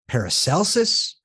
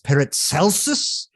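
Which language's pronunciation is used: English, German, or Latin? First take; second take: English; German. First: The name is said with a common English pronunciation. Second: The name is said with a German pronunciation. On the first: "a lot of times people will say" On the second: "in German it is"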